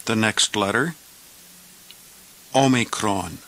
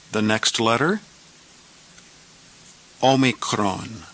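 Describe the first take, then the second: No difference in how they are said.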